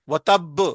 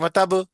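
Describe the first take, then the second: First: The b sound is doubled and held long. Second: The b sound is single and short. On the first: The speaker calls it right. "वो तब करेंगे तो फिर जाके वो सही होगा" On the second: The speaker calls it wrong. "तो सही नहीं होगा, एक हर्फ कम हो जाएगा"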